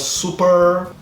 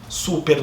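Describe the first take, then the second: First: It is said with an American accent. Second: It is said with a Brazilian accent. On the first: "Nos Estados Unidos seria super" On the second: "Super no Brasil"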